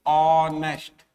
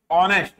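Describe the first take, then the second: First: ऑनेस्ट drawn out very slowly, starting on o; teacher repeats ऑनेस्ट slowly for students; slow pronunciation demo. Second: ऑनेस्ट with a silent h, opening on o; quick model of ऑनेस्ट; pronunciation demo. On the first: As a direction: stretch every sound of ऑनेस्ट slowly. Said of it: "ऐसा". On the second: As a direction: say ऑनेस्ट at normal pace with no h sound. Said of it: "ऐसे बोलोगे ना आप". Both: Shown as a demonstration.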